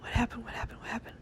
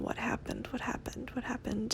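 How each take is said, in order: First: The phrase is repeated faster, words running together. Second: The phrase is repeated at an ordinary, slower pace.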